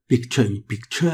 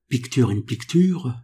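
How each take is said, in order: First: It is said with an English accent. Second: It is said with a French accent. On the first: "avec un effort de prononciation" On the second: "si je prononce ces mots à la française"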